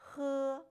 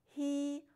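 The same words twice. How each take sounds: First: The vowel is pronounced the Chinese way. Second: The vowel is pronounced the English way. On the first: The speaker calls it right. "It is pronounced he" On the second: The speaker calls it wrong. "not he, like you would pronounce H E in English"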